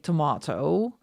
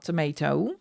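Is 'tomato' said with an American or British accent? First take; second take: British; American. First: It is said with a British accent. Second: It is said with an American accent. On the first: "we get taught in school uh, British English. So we do say tomato" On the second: "and not tomato"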